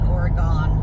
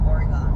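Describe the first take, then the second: First: The last syllable is said as a full 'gone'. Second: The word ends reduced, sounding like 'organ'. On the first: This is how outsiders say it. The speaker calls it wrong. "as a lot of people pronounce it" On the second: This is how locals say it. The speaker calls it right. "that's how we say it out here"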